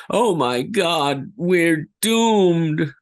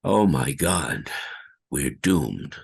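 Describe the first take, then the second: First: High, slow, despairing wail; terrified. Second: Said in the usual way. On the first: Shown as a demonstration. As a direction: cry out that all is lost. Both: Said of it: "Like so".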